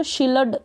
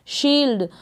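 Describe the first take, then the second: First: शील्ड split in two, shil-ad with a full l; full l misreading. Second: शील्ड as one syllable, l running into d; half ल straight into ड in शील्ड. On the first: Teacher showing the mistake, extra vowel after l in शील्ड. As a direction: sound the whole ल in शील्ड as its own syllable. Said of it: "अगर पूरा पढ़ेंगे". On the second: Teacher correcting the misreading, one-syllable शील्ड. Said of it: "तो ये गलत हो जाएगा". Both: Shown as a demonstration.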